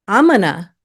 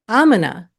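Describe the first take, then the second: No difference in how they are said.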